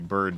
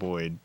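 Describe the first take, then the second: First: The word is said with a standard American accent. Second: The word is said with a New Jersey accent. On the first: "say Bird instead" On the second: "stop saying Boyd"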